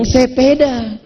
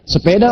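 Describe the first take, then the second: First: It is said with a Medan accent. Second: It is said with a Banten accent.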